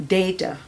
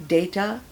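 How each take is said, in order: No difference in how they are said.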